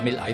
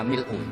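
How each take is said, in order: First: The word ends with an 'ah' vowel. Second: The word ends with an 'oo' vowel. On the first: This is the reading in some chains of transmission. "di beberapa sanad dibaca" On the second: This is the common reading in Java. "Kebanyakan kayak Jawa memang baca pakai rofaknya"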